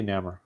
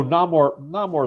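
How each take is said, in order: First: Namor said as NAMM-er; short A in Namor, weak "-er" ending; own pronunciation. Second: Namor said as NAH-more; broad "ah" in Namor, full "more" ending; alternative pronunciation. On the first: Speaker corrects friend, plain NAMM-er for Namor. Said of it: "I say Namor". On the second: Speaker weighs another option, NAH-more for Namor. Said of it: "although Namor, Namor is probably". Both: Shown as a demonstration.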